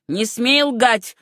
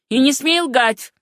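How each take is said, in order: First: Slow, mildly shouted warning; understated yell, each word drawn out; angry shout. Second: Higher, slow and forceful warning; shouted order. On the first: Uncle warns his niece against lying, slow restrained shout. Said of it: "крикнул мистер Верхэм". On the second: Sam's father demands the truth, higher forceful cry. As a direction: raise the pitch and press each word. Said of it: "крикнул отец Сэма Райта". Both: A narrator's reading.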